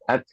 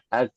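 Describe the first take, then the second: First: The final k releases a soft puff of air. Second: The final k bounces into an extra vowel. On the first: The speaker calls it right. "tapi ak ak ya itu namanya sifat hams" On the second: The speaker calls it wrong. "Tapi jangan sampai pantulan"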